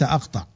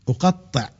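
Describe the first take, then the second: First: The middle consonant is short, not doubled. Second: The middle consonant is held long, doubled. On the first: The action is plain, not intensified. The speaker calls it wrong. "وليس" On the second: The action is intensified and repeated. The speaker calls it right. "لام التوكيد وفعل مشدد"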